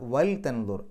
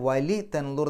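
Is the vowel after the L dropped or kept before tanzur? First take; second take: dropped; kept. First: The vowel after the L is dropped. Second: The vowel after the L is kept. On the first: The speaker calls it right. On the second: The speaker calls it wrong.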